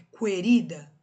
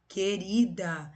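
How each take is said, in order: First: Querida with the U pronounced, kue-RI-da; "querida" opening on kw, as a wrong example; U sounded wrongly. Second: Querida said slowly with no U sound; drawn-out "Querida" starting with a plain K sound; silent U. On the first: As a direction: loudly mispronounce "querida" as "cuerida". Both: Shown as a demonstration. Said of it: "vocês escutam o som do U?".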